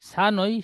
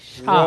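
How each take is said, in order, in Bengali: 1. এটি পাতলা s ধ্বনি দিয়ে শুরু হয়। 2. এটি একটু মোটা sh ধ্বনি দিয়ে শুরু হয়। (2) "শিন অক্ষরটি আরেকটু মোটা আওয়াজে বলেন"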